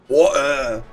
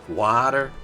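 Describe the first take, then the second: First: It is said in a British accent. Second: It is said in an American accent.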